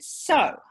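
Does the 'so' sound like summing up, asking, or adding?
summing up. It sounds like summing up.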